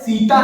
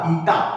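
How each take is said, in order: First: The word begins with a plain s sound. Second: The word begins with a th sound. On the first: The speaker calls it wrong. "अरे भाई सीटा नहीं" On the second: The speaker calls it right. "थीटा थीटा"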